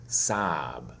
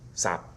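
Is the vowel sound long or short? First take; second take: long; short. First: The vowel is held long before the final consonant. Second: The vowel is cut short before the final consonant. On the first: "for the O is going to be fairly long" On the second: "If you said this word quickly"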